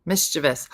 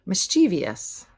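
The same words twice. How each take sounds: First: Three-syllable Mischievous, stressed at the front; correct mischievous. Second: Slow four-syllable Mischievous with an extra "ee"; mispronounced mischievous. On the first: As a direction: say Mischievous as "MIS-chuh-vus". Correct take after the wrong one. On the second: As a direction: say Mischievous as "mis-CHEE-vee-us". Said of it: "Mischievous is wrong". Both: Shown as a demonstration.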